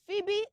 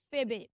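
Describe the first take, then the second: First: Phoebe as "FEE-bee"; correct pronunciation. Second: Phoebe as "fih-bee"; short lax vowel at the start of Phoebe; wrong pronunciation. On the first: Teacher sums up for children, Phoebe as "FEE-bee". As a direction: clear EE sound at the start of Phoebe. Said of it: "So it's Phoebe". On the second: Teacher shows what to avoid, Phoebe as "fih-bee". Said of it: "not Phoebe". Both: Shown as a demonstration.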